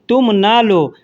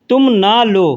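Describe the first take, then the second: The two takes are said the same way.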